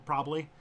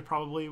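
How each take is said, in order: First: "probably" squeezed to two syllables, "probly"; shortened pronunciation. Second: "probably" with all three syllables; carefully complete "probably"; full pronunciation. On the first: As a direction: drop the middle syllable of "probably". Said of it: "We go probably". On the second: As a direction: sound both Bs in "probably". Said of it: "we don't say probably". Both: Shown as a demonstration.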